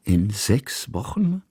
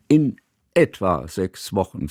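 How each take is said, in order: First: Slow, questioning repeat, rising on Wochen; puzzled repeat. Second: Soothing. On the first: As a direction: echo it back slowly, surprised. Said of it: "wiederholte Kusmin". (langsam, ungläubig nachgefragt, Wochen steigend) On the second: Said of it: "sagte Johanna wie beschwichtigend". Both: A narrator's reading.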